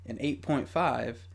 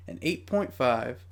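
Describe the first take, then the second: No difference in how they are said.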